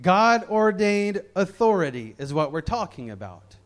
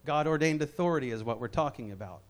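First: Said in the usual way. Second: A low, quick echo of the line; softer, faster repeat. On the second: Real, not acted. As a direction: drop the voice and run through it quickly. Key phrase said twice.

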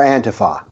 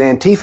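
First: Antifa said "AN-tuh-fah", with a short middle and open last vowel. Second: Antifa said "an-TEE-fuh", with an ee in the middle. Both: Shown as a demonstration. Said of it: "Is it Antifa or Antifa?".

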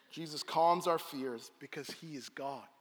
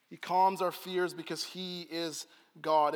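First: Said in the usual way. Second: "calms" leaned on, slowed, each word weighted; slow emphatic restatement. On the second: Shown as a demonstration. Preacher repeats his final point, slow and weighted. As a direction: drive it home slowly, stressing "calms".

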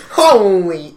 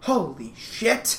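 First: Loud, drawn-out HOLY; exaggerated amazement. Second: Slow, softer, awed "Holy shit"; understated amazement. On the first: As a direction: belt out HOLY as an overblown take. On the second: Retold or imitated. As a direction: let "Holy shit" out slowly, without shouting. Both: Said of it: "it was more just like a".

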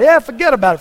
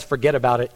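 First: Put-on "forget about it" in a higher, louder New York accent; imitating New York "forget about it", higher and louder. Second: Said in the usual way. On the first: Pastor mimicking his New York friend, New York accent. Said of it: "that accent". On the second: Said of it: "Every sentence has".

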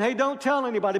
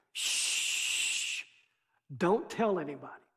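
First: A wink-wink warning meant to be broken; sly reverse psychology. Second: Soft shush, then a hushed quiet warning. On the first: Jesus as some imagine him, slyly urging the leper to tell. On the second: Jesus hushing the healed leper, quiet shush. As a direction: hush him like a secret. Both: Retold or imitated.

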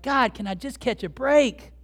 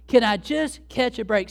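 First: Higher pleading complaint, "break" swung out; exasperated plea. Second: Higher, louder plea with "Can" stretched. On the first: Believer asking God for relief, exasperated. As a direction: plead with heaven, fed up. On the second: Believer begging God a second time, exasperated and emphatic. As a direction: drag out "Can" and punch "just", exasperated. Repeats the plea more drawn out. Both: Acted.

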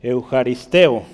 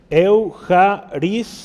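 First: "eujaristeo" said slowly, every syllable clear, ending on a falling tone; teacher's first careful take of "eujaristeo", slow with a falling close; careful pronunciation. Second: "Eujaristeo" drawn out very slowly, higher and louder, with a rising end; second take of "Eujaristeo", stretched out and pushed up high; emphatic pronunciation. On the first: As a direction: pronounce "eujaristeo" deliberately slow and clean, falling at the end. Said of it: "Es la palabra".

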